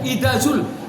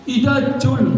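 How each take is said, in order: First: The second word starts with a 'z' sound. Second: The second word starts with a 'j' sound. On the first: The speaker calls it right. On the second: The speaker calls it wrong. "jul jadinya. Hurufnya udah beda"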